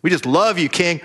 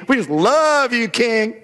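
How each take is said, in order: First: Said in the usual way. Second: Higher, syrupy fawning over the king; gushing flattery. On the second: Retold or imitated. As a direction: lay it on thick like butter. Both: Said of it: "sucking down the butter".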